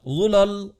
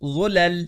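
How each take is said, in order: First: The L is pronounced thick and heavy. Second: The L is pronounced thin and light. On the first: The speaker calls it wrong. "दुरुस्त नहीं" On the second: The speaker calls it right. "हम कहते हैं ज़ुलल"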